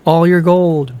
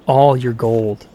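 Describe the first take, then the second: First: Higher, ringing cavern boom; booming echo. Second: Slow, weighty demand. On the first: The cavern echoes Loki's demand, booming and pitched up. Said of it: "boomed the cavern". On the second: Loki demands the captured dwarf's hoard, slow and firm. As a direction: spell out the demand slowly. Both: A narrator's reading.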